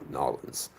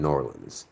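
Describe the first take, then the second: First: The city name is squeezed into two Southern syllables. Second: The city name is said in full, unreduced.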